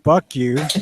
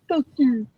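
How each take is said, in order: First: It is said in the speaker's own voice. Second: It is said in an imitated character voice.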